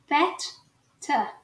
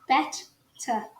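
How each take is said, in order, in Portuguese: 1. As consoantes do meio são T's nítidos e explosivos. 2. As consoantes do meio são T's nítidos e explosivos.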